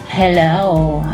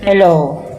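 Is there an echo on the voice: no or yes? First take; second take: yes; no. First: The voice has an echo effect on it. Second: The voice has no echo effect on it.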